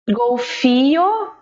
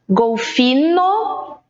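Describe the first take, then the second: First: The last syllable has no consonant at all. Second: The last syllable is a plain n sound.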